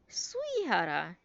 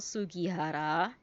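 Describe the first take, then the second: First: The middle g sound is dropped. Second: The middle g sound is pronounced. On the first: The speaker calls it right. "it is pronounced as Suihara" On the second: The speaker calls it wrong. "Not Sugihara"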